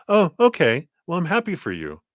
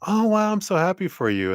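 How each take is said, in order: First: High start dropping into reluctant approval; acting out a mom's half-hearted congratulations; mixed reaction. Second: High-pitched gushing, thrilled for them; acted-out burst of motherly delight; delighted mom's heart. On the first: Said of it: "mixed reaction". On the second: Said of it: "at first the heart's like".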